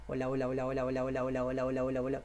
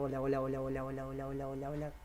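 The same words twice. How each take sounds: First: Quick repeated hola; hola, hola, fast like a drumbeat. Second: Rapid hola fading softer; hurried chain of hola; faster hola. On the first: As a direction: rattle off the hola rapidly. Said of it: "hagan ese hola más rápido". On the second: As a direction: speed the hola up. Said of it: "más rápido, rápido". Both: Shown as a demonstration.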